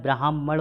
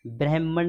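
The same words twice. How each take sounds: First: ब्राह्मण as "braa-hman"; long aa. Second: ब्राह्मण opening as "breh-man"; wrong vowel. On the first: Teacher correcting students, "braah" in ब्राह्मण. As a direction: open the first vowel of ब्राह्मण to aa. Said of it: "होता है". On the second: Teacher showing the error, "breh" in ब्राह्मण. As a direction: use an e sound in ब्राह्मण. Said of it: "नहीं होता है". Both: Shown as a demonstration.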